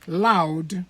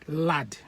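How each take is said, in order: First: Said in the usual way. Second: "lad" said with a flat short a instead of "loud"; Benin "lad". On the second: Shown as a demonstration. Benin man saying loud as "lad". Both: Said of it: "the Benin man will call loud lad".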